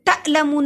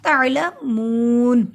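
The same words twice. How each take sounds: First: The final vowel of mun is short. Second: The final vowel of mun is drawn out long. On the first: The speaker calls it wrong. "तालमून नहीं पढ़ा मैंने" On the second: The speaker calls it right. "मून को लंबा किया क्योंकि हरूफ मद्दा है"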